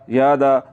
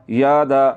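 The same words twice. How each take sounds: The two takes are said the same way.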